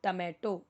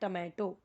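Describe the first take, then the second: No difference in how they are said.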